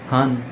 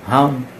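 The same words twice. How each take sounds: First: The name is pronounced as Han. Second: The same.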